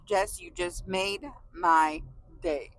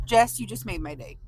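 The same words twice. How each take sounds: First: Slow, tender and sincere; slow heartfelt. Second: Said in the usual way. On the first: Real, not acted. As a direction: say it slowly from the heart.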